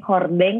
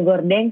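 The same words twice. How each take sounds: First: Hordeng said with a breathy h at the start. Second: Gordeng said with a hard g at the start. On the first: Friend contrasting hordeng with an h. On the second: Bekasi friend saying gordeng with a g. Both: Shown as a demonstration. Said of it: "Ada yang bilang gordeng".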